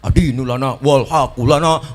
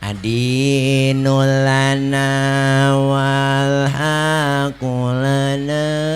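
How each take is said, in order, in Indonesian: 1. Dibacakan dengan semangat yang lantang dan hidup. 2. Dibacakan pelan dengan sedikit semangat. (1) "Jadi semangat bacanya tentara-tentara Mesir" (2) "Pindah ke Indonesia versinya lain"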